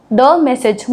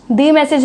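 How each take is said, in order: First: "the" said as "thuh", short schwa, before "message"; the correct way: short "thuh message"; right pronunciation. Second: "the" said as "thee", long ee, before "message"; the wrong way: "thee message"; wrong pronunciation. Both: Shown as a demonstration. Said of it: "the message नहीं होगा".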